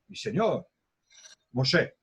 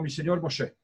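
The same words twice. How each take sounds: First: There is a pause before the last word. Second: There is no pause before the last word.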